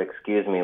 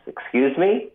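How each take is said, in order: First: Said in the usual way. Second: Put-on "Excuse me?" pitched higher, a puzzled question in a Bangladeshi accent. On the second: Clerk answers the gunman's question, Bangladeshi accent. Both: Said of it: "that accent in the word".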